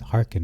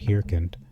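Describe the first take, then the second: First: The E in the first syllable is silent. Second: The E in the first syllable is pronounced. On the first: The speaker calls it right. "so it's hearken" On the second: The speaker calls it wrong. "not hearkened"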